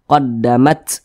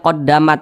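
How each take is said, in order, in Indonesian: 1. Huruf t di akhir diakhiri dengan desisan udara yang terdengar. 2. Huruf t di akhir diakhiri tanpa desisan udara. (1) "seperti ular berdesis" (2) "Jangan dibaca qaddamat. Nah, tidak ada desisannya. Nah, itu salah"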